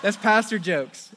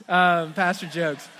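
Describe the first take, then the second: First: Said in the usual way. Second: Laughing through pastor jokes. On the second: Real, not acted. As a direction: chuckle at your own joke, slowly.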